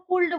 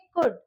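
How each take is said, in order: First: The l is sounded. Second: The l is silent. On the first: The speaker calls it wrong. "कई ऐसे बोलते हैं ... नहीं ऐसा नहीं है" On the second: The speaker calls it right. "एल silent है तो इसको हम प्रोनाउंस करेंगे कुड"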